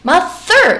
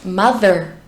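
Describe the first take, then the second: First: The th is hard and hissing, without voice. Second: The th is soft and voiced, close to d. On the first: The speaker calls it wrong. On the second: The speaker calls it right.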